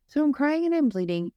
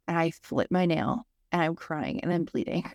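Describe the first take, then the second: First: Emphatic repeat. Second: Said in the usual way. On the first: Real, not acted. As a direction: hammer the point home the second time.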